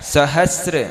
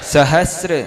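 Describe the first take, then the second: No difference in how they are said.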